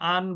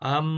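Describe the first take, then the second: First: The syllable ends with a plain n sound. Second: The syllable ends with a nasalized m sound. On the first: The speaker calls it wrong. "আমরা এখানে আন বলবো না" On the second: The speaker calls it right. "এই নুনটা পরিবর্তন করতে হবে মিম দিয়ে। আর এখানে কিন্তু গুণনা হবে"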